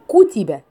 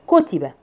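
First: The short vowels are given their full length. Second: The short vowels are cut short, only partly voiced. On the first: The speaker calls it right. "اقول كتبة" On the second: The speaker calls it wrong. "فما اقدرش اقول كتبة"

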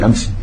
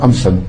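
First: The word ends with an 'i' sound. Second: The word ends with an 'an' sound. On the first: The speaker calls it right. "tu dis Amsi. Toujours" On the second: The speaker calls it wrong. "Tu ne dis pas Amsan"

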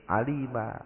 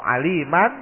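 First: The word ends on a bare -a vowel. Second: The word ends with a final -an sound. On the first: The reader stops on this word. "berhenti jadi a" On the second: The reading continues without stopping. "Kalau bunyi an"

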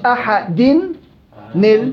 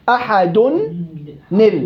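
First: The word ends in i before the linking n. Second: The word ends in u before the linking n. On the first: The speaker calls it wrong. "مش احد نل، غلط" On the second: The speaker calls it right. "تنوين ضم لما انت بتنوين ضم بنتهي لنون بكسر النون"

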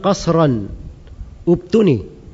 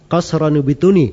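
First: A glottal stop separates qasran from ubtuni. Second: Qasran runs straight into ubtuni without a break. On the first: The speaker calls it right. "Saya baca hamzanya, ubtuni" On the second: The speaker calls it wrong. "Harusnya kalau bacaan biasa, qasran ubtuni, begitu kan?"

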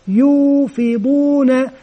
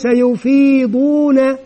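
First: The first vowel is long, the second short. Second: The first vowel is short, the second long. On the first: The speaker calls it right. "المد هنا بعد الياء ولا يوجد مد بالياء بعد الفاء" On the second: The speaker calls it wrong. "وليس يفيضون"

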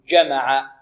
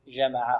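First: The j sound is hard, with the sound stopped. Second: The j sound is soft and continuous. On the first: The speaker calls it right. "بل نقول جمع" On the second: The speaker calls it wrong. "خطأ"

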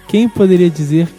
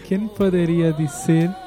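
First: It is spoken in a normal Portuguese voice. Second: It is spoken with a Spanish accent. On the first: The speaker calls it right. "Fala direito, com a sua voz normal" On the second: The speaker calls it wrong. "você fala com sotaque espanhol"

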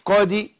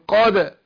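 First: The final d is released toward an 'i' vowel. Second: The final d is released toward an 'a' vowel. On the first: The speaker calls it wrong. "مش قادي" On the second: The speaker calls it right. "قول قادة"

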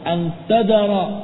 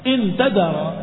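First: The first word is said with the vowel a. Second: The first word is said with the vowel i. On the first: It gives a reason: because you leave them. "Yang pertama dengan fathah" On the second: It states a condition: if you leave them. "Kalau dengan kasrah"

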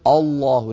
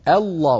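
First: The opening glottal stop is heavy and emphatic. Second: The opening glottal stop is light and thin. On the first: The speaker calls it wrong. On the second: The speaker calls it right.

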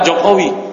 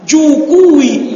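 First: The name is said with o vowels. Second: The name is said with u vowels.

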